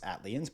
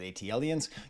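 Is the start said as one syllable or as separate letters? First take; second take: one syllable; separate letters. First: The start is said as one syllable. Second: The start is said as separate letters. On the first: This is how it is meant to be said. The speaker calls it right. "I know it's Atlians" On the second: This is how the speaker always said it. The speaker calls it wrong. "I always called it ATLiens"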